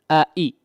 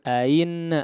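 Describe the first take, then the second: First: Both glottal stops are pronounced clearly. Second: The second glottal stop is softened, not clear. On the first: The speaker calls it right. "hamzah dua-duanya dijelaskan" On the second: The speaker calls it wrong. "Jangan ain"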